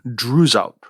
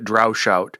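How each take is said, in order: First: The middle of the name sounds like 'z'. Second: The middle of the name sounds like 'sh'. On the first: The speaker calls it right. "the more correct pronunciation should be Druzout" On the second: The speaker calls it wrong. "I think I've been pronouncing it Droushout"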